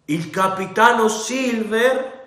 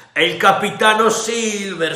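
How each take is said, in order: First: High, slow rising sneer on capitano; mock the title with disbelief; scornful question. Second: High, loud, falling announcement; rebel sailor voice. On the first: Captain scoffs at the title. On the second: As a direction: present Silver with a flourish. The other rebel answers. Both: A narrator's reading.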